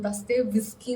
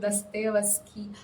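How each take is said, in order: First: The name ends sounding like 'whisky'. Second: The name ends in a plain 'ski' sound. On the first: This is the speaker's habitual way of saying it. The speaker calls it wrong. "ഞാൻ എന്തോ ദസ്തേവ് വിസ്കി എന്നാണ് ഞാൻ പറയുന്നത്" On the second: This is how the name is properly pronounced. The speaker calls it right. "അങ്ങനെയാണ് pronounce ചെയ്യുന്നത് എനിക്കറിയാം"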